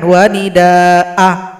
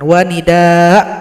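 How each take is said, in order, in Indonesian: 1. Vokal akhir dibaca pendek. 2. Vokal akhir dihilangkan sama sekali. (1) "atau dipendekkan wa nida'a, salah" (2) "tidak boleh disukunkan. Wa nida' itu salah"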